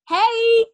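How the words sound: The greeting sounds genuinely excited.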